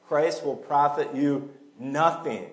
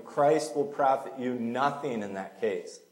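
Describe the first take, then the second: First: "Christ will profit you nothing" read slowly, each word weighed, stress on "Christ"; slow emphatic reading. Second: Said in the usual way. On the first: Shown as a demonstration. Pastor reading Paul's warning to the church, slow and weighty. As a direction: lean on "Christ" and let the reading slow right down. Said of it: "he doesn't beat around the bush". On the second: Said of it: "I'm just telling you".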